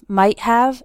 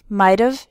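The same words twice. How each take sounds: First: The word have is pronounced fully and clearly. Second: The word have is shortened and run together.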